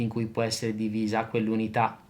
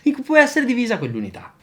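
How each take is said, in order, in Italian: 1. L'intonazione rimane piatta e monotona. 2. L'intonazione sale e scende in modo eccessivo. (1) "Comincio con quello monotonale" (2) "Adesso esagero con una modulazione dell'intonazione eccessiva"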